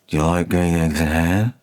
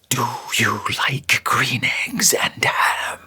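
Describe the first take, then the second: First: It is quiet with slack consonants and droning vowels. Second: It is whispered with sharp, strongly articulated consonants. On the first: The speaker calls it wrong. "if we just lower the volume but our diction's flabby, all we hear is the drone of the vowels" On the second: The speaker calls it right. "when you really lean into those consonants, even a voiceless stage whisper sounds clear"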